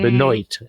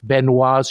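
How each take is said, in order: First: The name is said with English sounds. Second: The name is said with French sounds.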